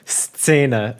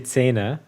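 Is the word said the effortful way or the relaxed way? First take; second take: effortful; relaxed. First: The word is said the full, effortful way. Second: The word is said the easy, relaxed way. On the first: This is the proper way of saying it. The speaker calls it right. "it's so inconvenient to go Szene" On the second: This is the lazy everyday way of saying it. The speaker calls it wrong. "I never say it that way. I just say Szene, but it's not"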